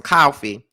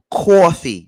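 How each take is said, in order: First: Said in the usual way. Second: Put-on New York accent. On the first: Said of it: "I could hear that little New York". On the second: Imitating how New Yorkers say coffee, exaggerated New York accent. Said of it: "I could hear that little New York, uh, accent so hard".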